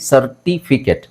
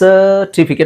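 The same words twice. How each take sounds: First: The first vowel is short and clipped. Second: The first vowel is drawn out long. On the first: The speaker calls it wrong. "Common ಆಗಿ ಸರ್ಟಿಫಿಕೇಟ್ ಅಂತ ಹೇಳ್ತೀವಿ" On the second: The speaker calls it right. "ಅಂದರೆ ಸನ ಎಳಿಬೇಕು"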